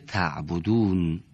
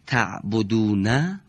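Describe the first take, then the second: First: The word ends on a silent final consonant. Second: The word ends with its short final vowel. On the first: The reader stops on this word. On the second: The reader continues without stopping.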